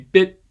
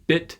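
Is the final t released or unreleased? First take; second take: unreleased; released. First: The final t is swallowed without release. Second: The final t is released with a puff. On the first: "swallow that T without releasing it" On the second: "clearly release that final stop sound"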